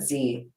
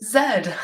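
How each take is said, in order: First: The letter is said as 'zee'. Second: The letter is said as 'zed'. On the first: This is how people in America say it. "here in good old America, we call it" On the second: This is how people in other countries say it. "as my dear friends in other countries might say"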